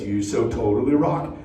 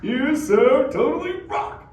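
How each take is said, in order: First: Lower, quieter demo of the cue line; low, soft turtle catchphrase. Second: Lightly voiced slow surfer turtle; turtle catchphrase. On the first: Turtle quietly explaining the cue to the kids. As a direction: murmur it low as a cue example. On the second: Turtle showing the kids what he'll say, slow. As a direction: hand the crowd its cue line. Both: Shown as a demonstration. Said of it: "if a turtle says".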